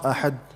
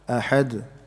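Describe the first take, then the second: First: The final d is clipped with no echo. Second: The final d has a slight echoing bounce. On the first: The speaker calls it wrong. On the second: The speaker calls it right.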